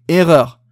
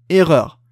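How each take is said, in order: Both takes have the same delivery.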